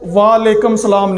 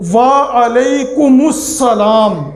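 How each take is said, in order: First: The reply is clipped and run together. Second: The reply is said in full with 'alaikumus'. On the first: The meaning of the reply is changed. The speaker calls it wrong. "नहीं कहेगा" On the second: Peace be upon you too. The speaker calls it right. "बल्कि"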